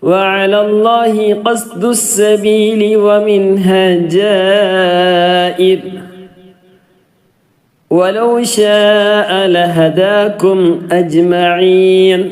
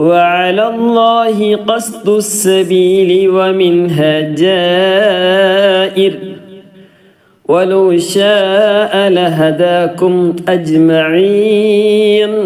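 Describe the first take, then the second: The two takes are said the same way.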